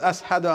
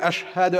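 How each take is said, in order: First: The 'sh' sound is replaced by another sound. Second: The word has a clear 'sh' sound. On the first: The speaker calls it wrong. "He can't even pronounce Sheen properly" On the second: The speaker calls it right. "Instead of saying"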